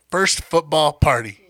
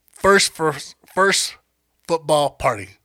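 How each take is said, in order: First: First football party said slowly and carefully; slow down and nail First football party; slow careful retake. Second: Stumbling over words. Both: Real, not acted. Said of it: "That's a tongue twister".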